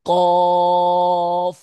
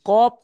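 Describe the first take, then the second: First: It ends with upper teeth on lower lip. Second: It ends with both lips closing, like p. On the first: The speaker calls it right. "উপরের দাঁতটা নিচের ঠোঁটে টাচ করতে হবে শেষে" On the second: The speaker calls it wrong. "আপনার কপ হয়ে যাচ্ছে, কপ নেই।"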